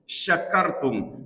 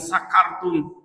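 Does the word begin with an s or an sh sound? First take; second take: sh; s. First: It begins with an sh sound. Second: It begins with a plain s sound. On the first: If you are grateful. The speaker calls it right. "kata syakara yang artinya bersyukur" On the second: If you get drunk. The speaker calls it wrong. "dibaca la in sakartum, maka akan fatal artinya"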